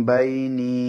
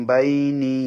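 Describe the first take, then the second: The two takes are said the same way.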